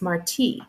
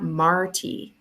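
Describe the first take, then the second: First: The name is pronounced the Spanish way. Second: The name is pronounced the English way. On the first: The name honors a Cuban poet. The speaker calls it right. "like Jose Marti, the Cuban poet" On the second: The name sounds like a movie character's. The speaker calls it wrong. "not Marty, like Marty McFly from Back to the Future"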